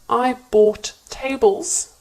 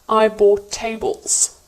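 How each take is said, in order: First: The two T sounds are said separately. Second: The two T sounds merge into one.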